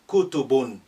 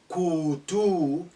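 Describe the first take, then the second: First: The second vowel is kept short. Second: The second vowel is drawn out long. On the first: The speaker calls it right. "la, short" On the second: The speaker calls it wrong. "don't elongate your pronunciation. If it is a kutubun, don't say"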